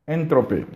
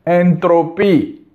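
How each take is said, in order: First: Entropy repeated much softer, almost to himself; soft echo. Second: Entropy drawn out slowly and pressed firmly; slow emphatic word. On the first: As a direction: let Entropy fall away quietly like an afterthought. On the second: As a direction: lay each syllable of Entropy down slowly for weight. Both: Real, not acted. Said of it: "repeated word Entropy".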